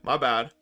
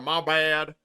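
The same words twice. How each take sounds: First: It is said in the speaker's usual accent. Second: It is said in a put-on American accent.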